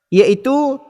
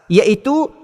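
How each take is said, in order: Both takes have the same delivery.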